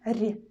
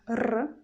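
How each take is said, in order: First: The consonant is soft, palatalized. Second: The consonant is hard, not palatalized. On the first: "soft sound R" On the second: "hard sound R"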